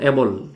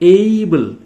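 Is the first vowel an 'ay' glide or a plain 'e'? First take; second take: plain e; ay glide. First: The first vowel is a plain short 'e'. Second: The first vowel glides like 'ay' in day. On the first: The speaker calls it wrong. "এইটোক আমি এবল বুলি কওঁ" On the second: The speaker calls it right. "এইটো উচ্চাৰণটো এইবল"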